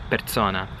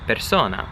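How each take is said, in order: First: The s is voiced like a z. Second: The s is a clear hissing s. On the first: This is a local accent pronunciation. "more of like a local accent kind of thing" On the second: This is the standard pronunciation. "you really hear the S"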